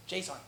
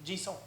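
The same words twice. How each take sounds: First: "json" said English JAY-sawn; pronunciation to avoid. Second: Soft "Jisung" said zhee-SOH; preferred French pronunciation. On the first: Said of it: "not pronouncing it like json". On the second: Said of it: "We can just say Jisung". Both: Shown as a demonstration.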